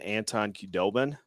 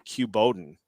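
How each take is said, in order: First: The d sound comes before the b sound. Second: The b sound comes before the d sound. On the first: The speaker calls it right. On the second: The speaker calls it wrong.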